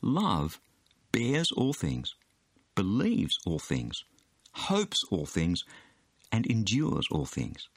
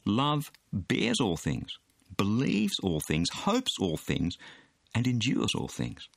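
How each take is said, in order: First: It is read slowly. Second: It is read at normal speed.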